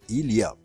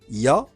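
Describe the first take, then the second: First: It is said fully, every sound pronounced. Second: It is clipped, with sounds dropped. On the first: It is standard speech. The speaker calls it right. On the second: It is casual, familiar speech. The speaker calls it wrong.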